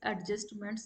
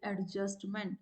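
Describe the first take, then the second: First: The final s sound is pronounced. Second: The final s sound is dropped. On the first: The speaker calls it right. "They don't say is adjustments" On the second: The speaker calls it wrong. "they say it adjustment"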